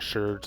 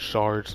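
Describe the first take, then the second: First: The vowel sounds like 'er' in her. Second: The vowel sounds like 'ar' in car. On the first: The speaker calls it wrong. "They're pronouncing it wrong if they say if they say sherds" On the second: The speaker calls it right. "It's shards"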